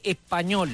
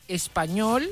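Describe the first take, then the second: First: The S is aspirated or dropped. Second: The S is pronounced fully. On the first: "la S se aspira o se va" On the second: "en vez de decir español"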